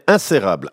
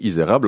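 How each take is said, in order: First: The name starts with a nasal 'in' sound. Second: The name starts with a plain 'i' sound. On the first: The speaker calls it wrong. "ça devient insérable" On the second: The speaker calls it right. "pour Stéphanie, Isérable"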